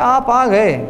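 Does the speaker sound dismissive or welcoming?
dismissive. It is said in a cool, grudging tone. The guest has come, so they may as well sit. "چلو آ گئے ہو تو بیٹھ جاؤ"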